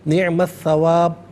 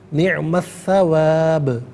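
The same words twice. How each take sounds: First: The final b stops flat with no bounce. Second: The final b ends with an echoing bounce. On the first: The speaker calls it wrong. "गलत" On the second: The speaker calls it right. "आवाज़ लौटती भी महसूस होनी चाहिए"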